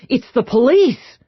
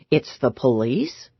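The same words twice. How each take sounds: First: It is said in an alarmed, urgent tone. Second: It is said with a questioning, rising tune. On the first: The arrival is frightening news. "Or maybe like I'm alarmed" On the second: The speaker is unsure who it is. "Or maybe sort of like a question"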